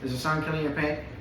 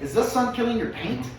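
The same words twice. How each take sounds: First: It is read flatly, without much energy. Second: It is said with attention-grabbing energy. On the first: The speaker calls it wrong. "how you read it" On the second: The speaker calls it right.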